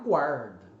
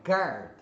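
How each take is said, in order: First: The u is sounded, giving a gw start. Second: The u is silent, giving a plain g start. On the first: The speaker calls it wrong. "A tendência do brasileiro é falar guard" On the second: The speaker calls it right. "é guard"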